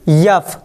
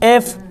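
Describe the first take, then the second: First: It begins with a y sound before the vowel. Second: It begins directly with an e vowel. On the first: The speaker calls it wrong. "यफ नहीं कहना" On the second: The speaker calls it right. "ना कि यफ"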